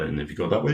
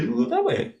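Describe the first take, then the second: First: Said in the usual way. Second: The second way jumps way up high; high mock squeak; squeaky high. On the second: Shown as a demonstration. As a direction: pitch the words up for the other way. Pointing the other way, jump up.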